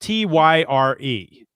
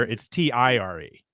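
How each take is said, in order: First: T Y R E, each letter slow and separate; spelled out British way. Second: T I R E, letters spoken one by one; spelled out American way. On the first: Host mocking the British spelling, slow letter-by-letter T Y R E. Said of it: "the spelling of tire". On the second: Host giving the American spelling, letter by letter T I R E. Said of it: "Whereas here". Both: Shown as a demonstration.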